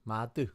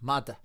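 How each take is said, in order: First: It is said in a Northern accent. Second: It is said in a Connacht accent.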